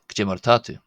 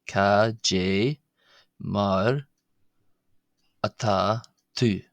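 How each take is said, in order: First: It is said quickly as one smooth phrase. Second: It is said slowly, broken into parts. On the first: "Once it's sped up" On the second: "I'll break that down"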